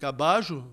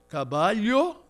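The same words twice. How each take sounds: First: It is said with an Argentine Spanish pronunciation. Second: It is said with a Spain Spanish pronunciation. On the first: "Na Argentina" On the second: "Você tem caballo na Espanha"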